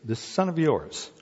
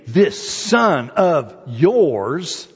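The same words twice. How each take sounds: First: Said in the usual way. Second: "This son of yours" drawn out very slowly, "son" rising with scorn; disdainful stress. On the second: Shown as a demonstration. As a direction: stretch "son" out with contempt. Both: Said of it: "I love that".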